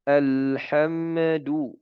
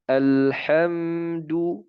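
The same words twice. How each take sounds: First: Very slow, the m in "alhamdu" bounced like "alhamadu"; wrong echoing mim sukun; bouncing mim. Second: Very slow, the m in "alhamdu" closed and still, with no bounce; clear mim sukun. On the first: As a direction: put a qalqala echo after the mim of "alhamdu". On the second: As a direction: correct recitation demo. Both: Shown as a demonstration.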